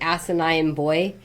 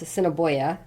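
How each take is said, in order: First: The name sounds like 'asinine boy'. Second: The name is said as 'Assiniboia'. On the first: The speaker calls it wrong. "Some people would say" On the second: The speaker calls it right. "it's like no, it's Assiniboia"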